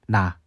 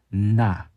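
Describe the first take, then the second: First: The syllable has only light, ordinary nasal resonance. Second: The syllable has strong, prolonged nasal resonance. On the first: The speaker calls it wrong. "그냥 나 하는 게 아니라" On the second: The speaker calls it right. "비음을 강하게 내셔야 됩니다"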